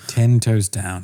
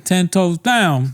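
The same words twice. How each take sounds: First: Put-on British echo of the slang; British accent. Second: High, drawn-out slangy catchphrase; mock slang talk. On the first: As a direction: say the slang in restrained mock British. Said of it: "but in a British voice". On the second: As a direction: stretch the catchphrase out, pitched up.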